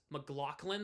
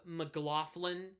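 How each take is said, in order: First: "McLaughlin" with a k sound, muh-GLOCK-lin; other McLaughlin. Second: "McLaughlin" with an f sound, muh-GLOFF-lin; usual McLaughlin. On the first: Retold or imitated. Streamer quoting what some people say, k sound in "McLaughlin". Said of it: "it's McLaughlin". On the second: Shown as a demonstration. Streamer showing how it's pronounced, f sound in "McLaughlin". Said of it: "instead of McLaughlin".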